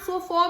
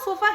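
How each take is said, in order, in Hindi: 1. आखिरी स्वर एक गोल किया हुआ 'aw' ध्वनि है। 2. आखिरी स्वर एक छोटा, कमज़ोर 'uh' है। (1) "वॉक में एक ही आवाज ओ होती है" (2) "फ्लैट ए साउंड"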